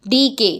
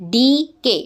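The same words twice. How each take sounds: First: Said in the usual way. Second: DK broken in two, "dee, kay"; split into syllables. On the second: Shown as a demonstration. Teacher counting syllables, DK split as "dee... kay". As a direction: say DK as two separate beats. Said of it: "DK टू syllable है".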